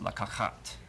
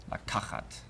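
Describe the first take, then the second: First: Lakachat stressed on the middle syllable; weight on the ka in lakachat; correct stress. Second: Lakachat stressed on the last syllable; wrong stress. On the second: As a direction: put the weight on the end of Lakachat. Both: Shown as a demonstration. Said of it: "as opposed to".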